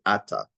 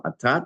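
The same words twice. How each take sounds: First: "ata" with the accent on its first syllable, A-ta; stress on first syllable. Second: "ata" with the accent on its last syllable, a-TA; stress on second syllable. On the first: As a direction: punch the opening syllable of "ata". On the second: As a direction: lift the final syllable of "ata". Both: Shown as a demonstration. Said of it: "it changes from".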